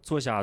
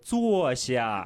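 First: It is said quickly. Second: It is said slowly.

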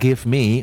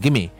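First: Both words are said fully and separately. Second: The words blend together into a shortened form. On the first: The speaker calls it wrong. "我们就不读成give me" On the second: The speaker calls it right. "我们读成give me"

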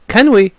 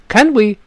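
No difference in how they are said.

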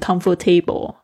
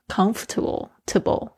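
First: The ending sounds like the full word table. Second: The ending is reduced, not like table. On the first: The speaker calls it wrong. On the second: The speaker calls it right.

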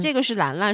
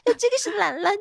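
First: It is said in a normal adult voice. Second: It is said in a childlike voice. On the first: An object is being introduced. "他不是说啊" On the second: One's own child is being introduced. "而且他会变成童音"

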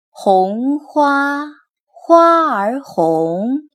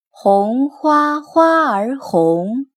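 First: It is read at a slower pace. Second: It is read at a faster pace. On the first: "稍微把速度放慢一点" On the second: "稍微加快一点速度读一遍"

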